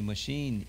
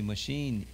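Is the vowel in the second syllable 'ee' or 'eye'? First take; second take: ee; ee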